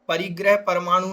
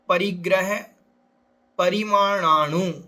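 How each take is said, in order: First: The second word is shortened to paramanu. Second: The second word is said in full as parimananu. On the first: The speaker calls it wrong. "कुछ लोग परिग्रह परमाणु कह देते हैं" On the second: The speaker calls it right. "परिग्रह परमाणु नहीं"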